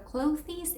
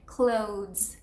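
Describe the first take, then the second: First: An extra vowel is sounded at the end. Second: No vowel is sounded after the final consonant. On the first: The speaker calls it wrong. "it's not clothes or clothes" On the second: The speaker calls it right. "eliminate the last E"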